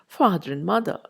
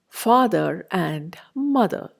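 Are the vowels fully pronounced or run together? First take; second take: run together; fully pronounced. First: The vowels merge and the weak form is used. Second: Each vowel is pronounced fully and separately.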